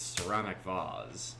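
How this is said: It is said in a British accent.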